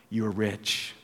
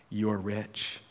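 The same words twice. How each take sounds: First: Said in the usual way. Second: "You're rich" dropped much softer, almost to himself; soft repeat. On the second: Shown as a demonstration. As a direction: let the repeat sink in quietly. Preacher repeats for effect.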